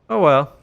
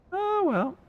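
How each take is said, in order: First: Said in the usual way. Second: Much higher squeaky falsetto. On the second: Acted. Streamer echoing himself in a joke voice, high squeak. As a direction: squeak it out like a cartoon. Repeats phrase in two voices.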